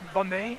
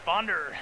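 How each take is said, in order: First: The name is said with a French accent. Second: The name is said with an English accent. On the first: The speaker calls it wrong. "attempt the French pronunciation" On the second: The speaker calls it right. "I like Bonder better. Sounds cooler"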